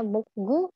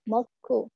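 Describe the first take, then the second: First: The middle consonant is a soft, voiced g. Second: The middle consonant is a hard, tense k. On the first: The speaker calls it wrong. "Nggak bacanya mokgu" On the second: The speaker calls it right. "tapi moku"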